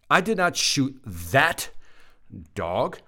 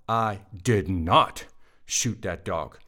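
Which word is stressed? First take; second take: that; not. First: The stress is on the word 'that'. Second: The stress is on the word 'not'. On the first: The speaker shot a different dog. "I shot the other one" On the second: The speaker denies shooting the dog. "That's a denial. I did not"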